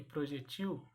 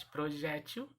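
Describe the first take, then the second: First: "projetil" said pro-je-TIL; stressed TIL in "projetil"; stress on last syllable. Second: "projétil" said pro-JÉ-til; stress on middle syllable. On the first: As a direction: hit the end of "projetil". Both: Shown as a demonstration. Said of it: "Eu posso pronunciar".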